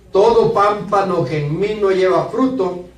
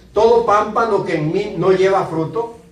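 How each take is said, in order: The two takes are said the same way.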